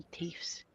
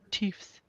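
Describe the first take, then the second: First: Whisper. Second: Said in the usual way. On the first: Shown as a demonstration. Whispering a made-up word.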